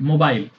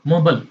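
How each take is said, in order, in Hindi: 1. यह British accent में बोला गया है। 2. यह अमेरिकन एक्सेंट में बोला गया है। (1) "ब्रिटिश में" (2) "अमेरिकन एक्सेंट में"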